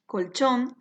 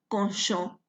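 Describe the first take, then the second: First: Colchón with clear l and ch, stress on the final syllable; colchón the Spanish way, kol-CHON. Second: Colchón the Guarani way, konsho; Guarani-adapted colchón. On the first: Teacher gives the original Spanish word, kol-CHON. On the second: Teacher shows the adapted Guarani word, konsho. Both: Shown as a demonstration. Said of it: "Aquí también hay una adaptación fonética".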